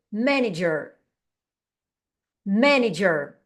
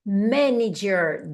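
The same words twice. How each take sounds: First: Said in the usual way. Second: "Manager" said very slowly, every syllable drawn out; slow careful model. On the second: Shown as a demonstration. Teacher drilling the hard word "Manager" for the class, slow and careful. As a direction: stretch "Manager" out so each sound is clear. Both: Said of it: "essa palavra aqui, gerente".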